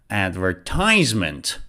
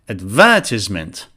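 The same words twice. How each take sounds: First: The stress is on the third syllable. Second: The stress is on the second syllable. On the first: This is the American pronunciation. "so it's ties" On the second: This is the British pronunciation. "It's before the second syllable"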